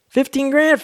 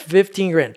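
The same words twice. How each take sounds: First: A much higher, louder stunned question; shocked disbelief. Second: Said in the usual way. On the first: Retold or imitated. Friend hearing the check amount, shocked high question. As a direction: gasp it out like you can't believe the number.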